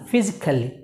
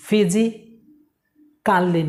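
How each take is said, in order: First: ফিজিক্যালি run together as fi-zik-lee, short "ka"; correct pronunciation. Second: ফিজিক্যালি slowly split as fi-zi, kaa-lee; long pause before a full "kaa-lee" in ফিজিক্যালি; rejected pronunciation. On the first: Teacher correcting the long form, ফিজিক্যালি with a quick, light "kali". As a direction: say ফিজিক্যালি in one piece, reduced ending. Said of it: "ফিজিক্যালি না". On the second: Teacher showing what not to say, ফিজিক্যালি with a drawn-out "kaa-lee". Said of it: "না". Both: Shown as a demonstration.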